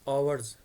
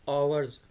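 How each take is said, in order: First: The word begins directly with a vowel sound. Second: The same.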